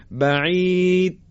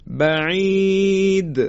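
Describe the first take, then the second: First: بعید with a flat final د, no echo; بعید without the qalqala bounce; wrong take without qalqala. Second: بعید slowly, the final د bouncing clearly; بعید with full qalqala; correct qalqala take. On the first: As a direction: say بعید clipped, the د swallowed. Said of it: "این صحیح نیست". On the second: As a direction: stretch بعید and let the د echo. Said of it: "صفت قلقله رو ما به خوبی انجام ندیم". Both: Shown as a demonstration.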